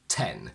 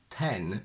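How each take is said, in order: First: The t is released with a puff of air. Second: The t is released without a puff of air. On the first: The speaker calls it right. "we say ten, where you can hear that the t has a little bit of an explosion" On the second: The speaker calls it wrong. "we don't say ten"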